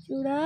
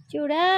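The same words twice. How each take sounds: First: Said in the usual way. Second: chivda called loud with a rising end; calling out. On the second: Real, not acted. Woman searching for her pet, loud rising call. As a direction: sing out chivda to fetch her.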